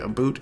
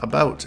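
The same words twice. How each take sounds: First: It is said with a Canadian 'aboot' sound. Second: It is said with a standard 'about' sound. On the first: "Because I'm Canadian" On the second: "pronouncing it the other way"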